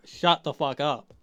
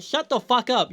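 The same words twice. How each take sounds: First: Slow, deliberate shut the fuck up, each word landed; slow emphatic retort. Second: High-pitched fed-up snap at Ellie; exasperated retort. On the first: Reviewer repeating it to Ellie, slow and final. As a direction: spell it out, done arguing. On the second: Reviewer firing back at Ellie, exasperated. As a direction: tell her to shut up, fed up. Ranting at Ellie's hissy fit. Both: Real, not acted.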